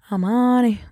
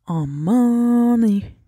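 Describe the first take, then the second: First: Said in the usual way. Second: Stretched out slowly like a groan of discomfort; drawn-out groan. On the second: Real, not acted. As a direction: drag out Aman ey as she strains. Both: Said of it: "yine tuvaletim geldi".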